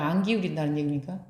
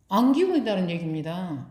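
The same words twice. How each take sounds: First: 안 기울인다는 얘기입니까 asked with a rising question lilt, quick and softer; rising question tune. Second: 안 기울인다는 얘기입니다 answered with a firm falling tune, stress on 기울인다는; falling statement tune. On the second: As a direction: settle it with a firm downward 얘기입니다. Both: Shown as a demonstration.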